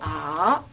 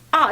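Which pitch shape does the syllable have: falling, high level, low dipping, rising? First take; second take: low dipping; falling. First: The pitch dips low, then rises again. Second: The pitch falls sharply from high to low. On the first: "삼성은 어떻게 하지? 아 이렇게 얘기하고" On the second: "사성은 어떻게 하지? 아 이렇게 해"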